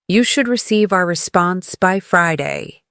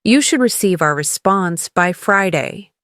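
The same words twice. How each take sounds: The two takes are said the same way.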